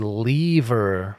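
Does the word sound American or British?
British. The word is said with a British pronunciation. The speaker calls it wrong.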